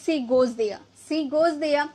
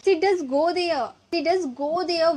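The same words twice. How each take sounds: First: Said in the usual way. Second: Slow, leaning on "does" in "She does go there"; stress on does. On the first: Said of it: "simple बोलेंगे". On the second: Shown as a demonstration. Teacher showing students the emphatic "does", slow. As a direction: press down on "does", slowly. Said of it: "लेकिन थोड़ा जोर देकर बोलेंगे कि".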